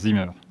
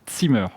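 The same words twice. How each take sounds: First: The word begins with a plain z sound. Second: The word begins with a ts sound. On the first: The speaker calls it wrong. "pas, pas Zimmer" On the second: The speaker calls it right. "c'est Zimmer"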